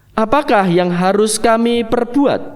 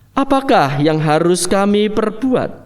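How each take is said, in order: The two takes are said the same way.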